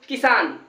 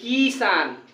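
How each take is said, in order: First: The first vowel is short and quick. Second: The first vowel is drawn out long. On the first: The speaker calls it right. "की का उच्चारण जल्दी होगा" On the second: The speaker calls it wrong. "हम ये नहीं कहेंगे"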